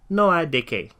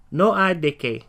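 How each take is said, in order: Both takes have the same delivery.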